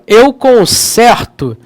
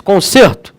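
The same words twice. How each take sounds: First: CONSERTO with an open stressed E, as if "consérto"; E aberto. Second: CONSERTO with a closed stressed E, as if "consêrto"; E fechado. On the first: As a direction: open the E wide in conserto, slowly. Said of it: "não parece que tem um acento agudo". (conserto com E aberto, acento agudo) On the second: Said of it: "O acento circunflexo". (conserto com E fechado, circunflexo) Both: Shown as a demonstration.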